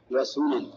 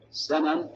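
First: وسنن read "wa-sunan", u after the s; damma reading. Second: سنن read "sanan", a after the first s; fatha reading. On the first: Teacher gives students the second reading, sunan with damma. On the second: Teacher gives students the first of two readings, sanan with fatha. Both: Shown as a demonstration. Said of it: "فيها روايتان".

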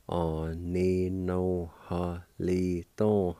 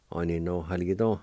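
First: Oninohalito sounded out slowly, syllable by syllable; slow teaching of Oninohalito; slow pronunciation. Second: Said in the usual way. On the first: Shown as a demonstration. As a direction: draw out Oninohalito slowly for learners. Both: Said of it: "it's pronounced like this".

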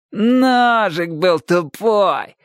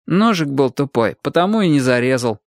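First: High, drawn-out singsong mimicry; exaggerated slow, high taunt; mocking mimicry. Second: Understated, unbothered reply; casual, near-conversational excuse; feigned indifference. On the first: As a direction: parrot his excuse very slowly to tease. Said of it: "передразнил его Шурик". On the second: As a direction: shrug it off as nothing. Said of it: "как можно равнодушнее ответил Чик". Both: A narrator's reading.

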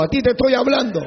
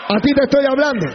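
First: Higher, firm but less loud; firm address. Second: Higher, louder and faster; louder repeat. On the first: Pastor scolding an abusive husband, firm. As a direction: point at him. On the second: Pastor scolding an abusive husband, shouting faster. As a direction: hammer it home at him. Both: Acted. Confronting the listener.

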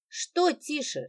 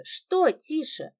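First: Said in the usual way. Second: Что тише drawn out slowly, each word weighed; slow mocking repeat. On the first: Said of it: "Lida repeats his word". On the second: A narrator's reading. Lida mocking the brother's hush, slow and pointed. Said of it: "slowed repetition".

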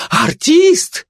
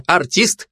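First: Very high, rising cry of disbelief; gossip's shrieky surprise; astonished exclamation. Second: Said in the usual way. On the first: A narrator's reading. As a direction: exclaim it in amazement, voice shooting up. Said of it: "воскликнула сплетница".

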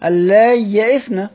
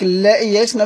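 First: اللا يئسن said slowly as al-lāy yaʼisna, the lām doubled and the yāʼ kept before the hamza; careful Quranic recitation of اللا يئسن; Abu Amr's reading. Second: اللا يئسن said as allā yaʼisna in passing, in the teacher's ordinary talk; اللا يئسن in a flat speaking voice, not recited; plain reading. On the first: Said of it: "أبو عمرو بينطقها كده". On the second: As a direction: read اللا يئسن quickly in conversation. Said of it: "بينطقها كده". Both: Shown as a demonstration.

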